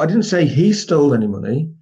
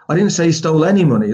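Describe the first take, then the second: First: The stress is on the word he. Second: The stress is on the word any.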